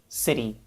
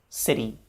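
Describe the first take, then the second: The two takes are said the same way.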